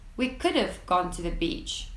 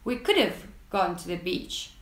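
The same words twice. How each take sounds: First: Could have is contracted into one short syllable. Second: Could have is reduced even further, like coulda. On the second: "in certain regions, you might even hear"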